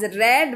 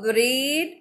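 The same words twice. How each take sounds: First: The vowel is short, like in 'red'. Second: The vowel is long, like in 'reed'. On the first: It is the past tense form. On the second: It is the present or base form.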